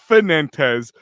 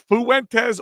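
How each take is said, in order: First: The name is said as Fenentes. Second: The name is said as Fuentes. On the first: The speaker calls it wrong. "or Fenentes, according to Pat" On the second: The speaker calls it right. "Is it Steve Fuentes"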